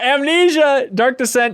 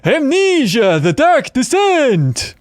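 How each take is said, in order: First: It is said in his normal voice. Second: It is said in a Count Chocula voice.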